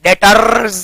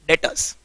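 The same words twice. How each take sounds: First: "डेटर्स" with a long rolled R, "det-arrrz"; wrong-way "डेटर्स" with a trilled, lengthened R; heavy R. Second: "डेटर्स" said as "det-uhz", very soft; light R. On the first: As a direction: exaggerate the R in "डेटर्स", drawn out. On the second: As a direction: say "डेटर्स" quietly, R hardly there. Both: Shown as a demonstration. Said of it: "आर को भी हल्का pronounce करके".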